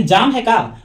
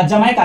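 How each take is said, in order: First: "जमैका" stretched into "जाम है का"; split into words. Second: Said in the usual way. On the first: Shown as a demonstration. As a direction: say "जाम है का" slowly as three words, long aa in जाम. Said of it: "जमैका बोलेंगे तो ऐसे ही जाम है का". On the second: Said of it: "यानी जाम है का".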